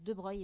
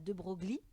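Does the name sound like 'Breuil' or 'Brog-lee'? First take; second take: Breuil; Brog-lee. First: The name is said like 'de Breuil'. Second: The name is said like 'de Brog-lee'. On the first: The speaker calls it right. "ça se prononce de Broglie" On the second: The speaker calls it wrong. "et pas de Broglie"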